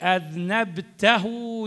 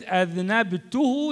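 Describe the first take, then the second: First: The vowel before the final pronoun is a. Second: The vowel before the final pronoun is u. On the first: The listener committed the sin. "يعني أنت اللي سويت" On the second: The speaker committed the sin. "يعني أنا اللي سويت"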